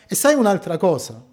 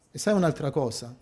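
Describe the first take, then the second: First: Fast, pointed question to the congregation. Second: Fast, much softer confiding echo; softer repeat. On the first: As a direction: ask it briskly, leaning in. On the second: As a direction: drop it to a near-confidential echo. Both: Shown as a demonstration.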